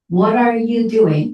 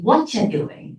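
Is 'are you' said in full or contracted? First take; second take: full; contracted. First: The words 'are you' are said in full. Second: The words 'are you' are contracted together. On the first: The speaker calls it wrong. "you shouldn't say" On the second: The speaker calls it right. "But you should say"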